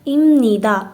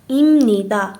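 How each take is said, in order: No difference in how they are said.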